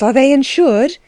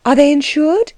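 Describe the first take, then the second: First: Said in the usual way. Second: Hushed, worried whispered question. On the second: Acted. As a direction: whisper it so no one hears. Asked in a hushed worry.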